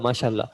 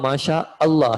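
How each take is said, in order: First: 'Allah' is merged into one word. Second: 'Allah' is said as a separate word. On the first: This is the everyday spoken form. "हम माशाल्लाह कह देते हैं" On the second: This is the actual full form. "असल में वो माशा अल्लाह है"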